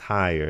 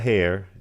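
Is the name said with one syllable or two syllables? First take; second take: two syllables; one syllable. First: The name is said as two syllables, 'higher'. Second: The name is said as one syllable, 'hair'. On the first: The speaker calls it right. "it's higher" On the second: The speaker calls it wrong. "it's not hair"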